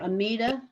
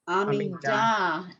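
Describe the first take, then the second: First: The stress is not on the last syllable. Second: The stress is on the last syllable. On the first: It is the English form of the word. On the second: It is the Hebrew form of the word.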